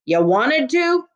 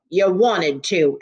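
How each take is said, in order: First: Slow, higher-pitched incredulous question; wide-eyed disbelief. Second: Disbelieving echo. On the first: Constable asking the girl once more, slowly incredulous. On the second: Constable echoing the girl's claim, slowly disbelieving. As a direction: repeat it slowly, barely believing it. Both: A narrator's reading. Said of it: "his eyes wide with disbelief".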